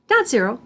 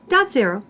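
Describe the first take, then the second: No difference in how they are said.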